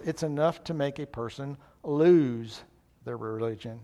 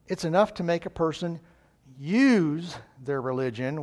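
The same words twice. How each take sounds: First: A lightly voiced grumbling doubter; gloomy pessimist. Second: Hopeful, slowing on "use their religion" with a rise; a lightly voiced cheerful believer; upbeat optimist. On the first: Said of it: "where the pessimist says". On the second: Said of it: "The optimist looks at life and says".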